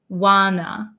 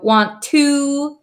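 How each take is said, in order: First: The words are reduced to 'wanna'. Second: Both words are said in full.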